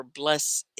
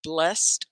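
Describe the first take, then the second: First: BLESSED drawn out as "bless-ed"; two syllables. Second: BLESSED as "blest", one beat; one syllable. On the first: Teacher compares two ways of saying the name, two syllables. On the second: Teacher compares two ways of saying the name, one syllable. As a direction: say the first BLESSED short, closing on t. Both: Shown as a demonstration. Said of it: "One syllable or Blessed?".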